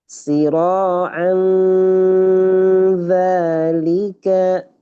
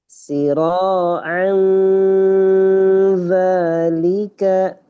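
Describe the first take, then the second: No difference in how they are said.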